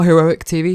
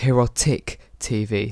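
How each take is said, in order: First: The name has no t sound before -ic. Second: The name has a t sound before -ic. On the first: The speaker calls it wrong. "Not Heroic T V" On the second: The speaker calls it right. "it's Herotic T V"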